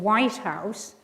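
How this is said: The stress falls on the first word. It names one particular building. "that's a compound noun"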